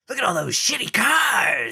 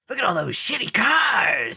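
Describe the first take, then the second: First: It is spoken in a hissing, snake-like villain voice. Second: It is spoken in a hissing, snake-like villain voice.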